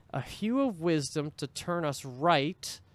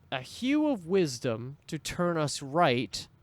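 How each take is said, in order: The two takes are said the same way.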